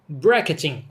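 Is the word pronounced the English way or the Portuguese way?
English. The word is pronounced with an English accent.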